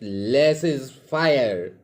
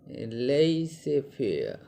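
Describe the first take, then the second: First: The second word sounds like 'fire'. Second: The second word sounds like 'fair'. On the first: The speaker calls it right. "but it's better to call it less is fire" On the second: The speaker calls it wrong. "Some pronounce it as laissez faire"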